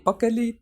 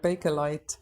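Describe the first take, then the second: First: It is pronounced the Estonian way. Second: It is pronounced the English way.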